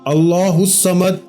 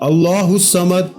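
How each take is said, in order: The two takes are said the same way.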